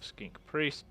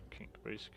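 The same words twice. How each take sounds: First: Said in the usual way. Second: Whispered to himself. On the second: Real, not acted. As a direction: breathe the name, no voice. Repeats the name to himself.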